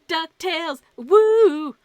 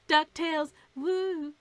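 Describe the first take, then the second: First: The woo is loud and full of enthusiasm. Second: The woo is flat and sounds embarrassed. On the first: The speaker calls it right. "there's some enthusiasm in there" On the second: The speaker calls it wrong. "there was no enthusiasm, there was no gusto in the the woo part"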